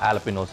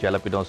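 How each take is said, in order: First: The word begins with an h sound. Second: The word begins with a j sound. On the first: The speaker calls it right. "జేని హా అన్నట్టుగా... ఆల్పినోస్ అని చదువుతారు" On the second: The speaker calls it wrong. "చాలామంది కన్ఫ్యూజన్ ఏంటంటే వీటిని జలపినోస్ అంటారు"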